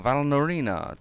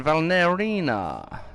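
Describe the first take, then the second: First: Valnorina said quicker, with an O in the middle; alternative pronunciation. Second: Valnerina drawn out slowly, with an E in the middle; first pronunciation variant. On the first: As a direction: say "Valnorina" with "nor" as the middle syllable. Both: Shown as a demonstration. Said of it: "depending on how you want to pronounce it".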